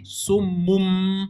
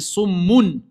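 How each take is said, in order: First: The word ends with an m sound. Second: The word ends with an n sound. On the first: "on dit summum" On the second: "Normalement, c'est summun"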